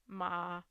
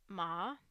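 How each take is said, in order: First: The pitch stays low and level. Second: The pitch starts low and then rises. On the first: "the low, um, if it is uh, flat" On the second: "the rise would sound something like"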